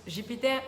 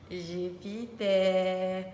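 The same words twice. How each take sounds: First: Said in the usual way. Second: JUPITER stretched out very slowly, syllable by syllable; drawn-out word. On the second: Pretend. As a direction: draw out every syllable of Jupiter playfully. Second take, stretched out for fun. (Jupiter étiré, syllabe par syllabe)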